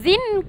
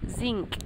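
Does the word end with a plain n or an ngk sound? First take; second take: plain n; ngk. First: The word ends in a plain n sound. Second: The word ends in an ng-k sound. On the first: The speaker calls it wrong. "Kita sebut zin ke zinc?" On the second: The speaker calls it right. "kita sebut zinc ... nga. Kemudian kaf"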